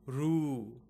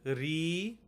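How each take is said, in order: First: It is pronounced ru, the South Indian way. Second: It is pronounced ri, the North Indian way.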